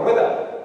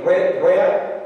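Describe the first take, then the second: First: Rueda said clearly with the d kept. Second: Ruea said with the d dropped; rueda without D. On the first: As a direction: keep the d in rueda. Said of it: "Nosotros decimos rueda, eso es decir, ruea". (rueda con la d pronunciada) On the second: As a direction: drop the d: ruea. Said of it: "como dicen para otros lados de Extremadura". (ruea, sin la d) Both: Shown as a demonstration.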